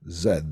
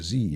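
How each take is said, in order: First: The letter is said the British way, 'zed'. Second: The letter is said the American way, 'zee'.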